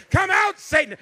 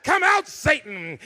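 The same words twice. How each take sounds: First: Louder and higher final exorcism cry; preacher's climax. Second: Loud, slow exorcising preacher; preaching mother. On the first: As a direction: crank it up to the peak. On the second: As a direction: cast Satan out, one word at a time. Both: Retold or imitated. Mother casting out Satan.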